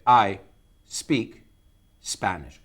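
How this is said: There is a short pause before the word speak. "take a pause before you say it"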